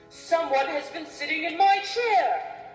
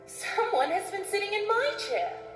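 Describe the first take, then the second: First: It is said in a big, deep voice. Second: It is said in a medium-sized voice.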